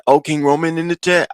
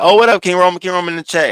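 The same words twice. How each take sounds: First: Imitated unplaceable accent, pitched high; Lemon. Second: Imitated excited greeting, pitched high; Ness. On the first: Imitating a man spotting someone in chat, odd accent. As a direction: put on a muddled mystery accent, high. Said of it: "we don't know what accent it was". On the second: Imitating a streamer greeting someone in the chat, excited. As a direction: hail a new arrival, high and lifted. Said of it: "Ness is like".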